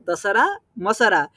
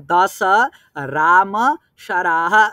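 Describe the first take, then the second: First: The syllables are grouped as dasara masara. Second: The syllables are grouped as dasa rama sharah. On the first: The reader does not grasp the meaning. The speaker calls it wrong. "दसरा मसरा पड़ेगा" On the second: The ten arrows of Rama. The speaker calls it right. "लेकिन इसके वास्तव में क्या है?"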